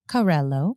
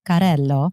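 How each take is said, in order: First: The name is said with a plain English accent. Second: The name is said with an Italian accent.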